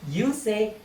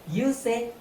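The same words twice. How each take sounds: The two takes are said the same way.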